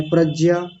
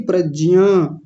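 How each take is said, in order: First: प्रज्ञा said like "pragja", with the ज्ञ reduced to a bare ज; the sloppy प्रज्ञा, just j with no ya; wrong pragya. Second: प्रज्ञा with ज्ञ said as ज plus इया, "pra-jiya"; careful "pradjiya" for प्रज्ञा; correct pragya. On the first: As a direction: careless "pradja" for प्रज्ञा. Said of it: "बस ज को बोल करके निकल जाते हैं". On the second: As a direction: sound the full ज्ञ in प्रज्ञा as j and iya. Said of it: "प्रज्ञा नहीं". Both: Shown as a demonstration.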